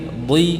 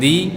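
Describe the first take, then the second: First: The syllable is pronounced thick and heavy. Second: The syllable is pronounced thin and light. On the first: The speaker calls it right. "Yang kasrah lebih tebal lagi" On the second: The speaker calls it wrong. "bukan di"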